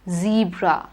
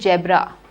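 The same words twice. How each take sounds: First: The word begins with a z sound. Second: The word begins with a j sound. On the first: The speaker calls it right. "It is z, zameen wala" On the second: The speaker calls it wrong. "don't say zebra"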